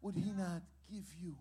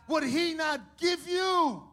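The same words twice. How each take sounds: First: Much softer repeated question; quiet repeat. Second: Emphatic question. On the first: Preacher softly repeats to congregation. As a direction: drop it to a near hush. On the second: Preacher presses congregation with God's provision. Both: Real, not acted.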